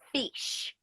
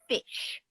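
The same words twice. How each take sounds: First: It is said with an Australian accent. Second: It is said with an English accent. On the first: "someone who is Australian will say" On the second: "someone who is from England will say"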